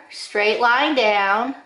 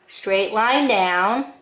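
No difference in how they are said.

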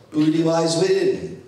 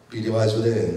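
First: Put-on "Booty lies within", copying the boy's unclear "Booty"; child's mispronunciation. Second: Said in the usual way. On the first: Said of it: "another bit of gibberish". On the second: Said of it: "that's Beauty and the Beast".

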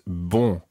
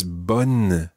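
First: Bon with a nasal vowel and no N sounded. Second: Bonne with the final N fully sounded; pronounced N in bonne. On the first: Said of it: "not bon". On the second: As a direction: close "bonne" on a clear N. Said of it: "Now watch it because it's". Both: Shown as a demonstration.

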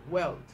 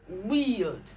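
First: "weld" with a short e; "weld" said short and lower. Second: "wield" with a long ee; "wield" said weeld. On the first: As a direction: clip the e in "weld". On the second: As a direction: lean on the ee of "wield". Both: Shown as a demonstration. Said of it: "So you have E".

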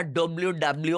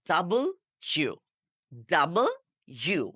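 First: ডব্লিউ, ডাব্লিউ run together as "dobliu, dabliu"; mispronounced W. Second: ডাবল ইউ split in two words, "dabol ... yu"; careful W. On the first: Teacher lists common wrong ways, ডব্লিউ slurred into one. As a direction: squash ডব্লিউ into one word, b joined to l. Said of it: "সবগুলোই ভুল". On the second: Teacher gives the correct pronunciation, ডাবল ইউ in separate parts. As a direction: pause between ডাবল and ইউ. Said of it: "সঠিকভাবে উচ্চারণ হচ্ছে". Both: Shown as a demonstration.

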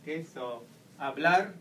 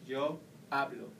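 First: Hablar with the final syllable stressed, ending in a rise; hablar, lean on the last syllable "lar". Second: Hablo stressed on "ha", falling at the end; hablo, lean on the first syllable "ha"; stress on the second-last syllable. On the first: Teacher showing students the stress on hablar. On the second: Teacher showing students the stress on hablo. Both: Shown as a demonstration. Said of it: "Remember also the intonation of the word".

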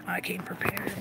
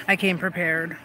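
First: Hushed, much softer whisper; barely voiced, quiet aside; whispered repeat. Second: Said in the usual way. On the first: Real, not acted. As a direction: say it under your breath. Same words repeated under breath.

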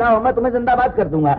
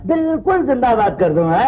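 First: Excited promise. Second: Laughing promise. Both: Acted. Cheering up the stranger.

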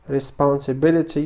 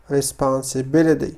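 First: "responsibility" with a clear T, ending in -bi-li-TEE; true T. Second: "responsibility" American style, ending in -bi-li-DEE; flap T. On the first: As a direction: say "responsibility" without the flap, a real T. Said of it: "كما قلت يمكنكم القول". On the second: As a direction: slowly say "responsibility" with T turned into D. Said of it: "فقمت بنطق تي على شكل دي". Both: Shown as a demonstration.

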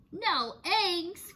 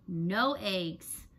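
First: High outraged cry; cried out. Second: Said in the usual way. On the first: A narrator's reading. Farmer Brown reacts to the cows' strike, crying out. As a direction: cry out the words in disbelief. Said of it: "cried Farmer Brown". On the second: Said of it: "No eggs!" cried Farmer Brown".

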